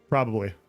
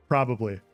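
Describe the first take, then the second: No difference in how they are said.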